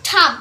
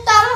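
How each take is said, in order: First: টার্ম with the r dropped, long vowel; correct pronunciation. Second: টার্ম with the r fully sounded; wrong reading. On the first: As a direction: say টার্ম the right English way. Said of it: "এটা হবে টার্ম". (সঠিক উচ্চারণে টার্ম) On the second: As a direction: say টার্ম the mistaken local way. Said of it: "এটা টার্ম হবে না". (ভুল উচ্চারণে টার্ম) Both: Shown as a demonstration.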